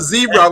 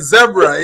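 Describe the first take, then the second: First: The word is said the American way. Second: The word is said the Jamaican way. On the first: "Instead of zebra" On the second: "we say zebra"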